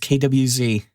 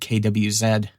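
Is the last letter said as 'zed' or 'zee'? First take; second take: zee; zed. First: The last letter is said as 'zee'. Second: The last letter is said as 'zed'. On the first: The speaker calls it right. "I'm an American, damn it. It's K W Z" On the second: The speaker calls it wrong. "I can't believe I just said K W Z"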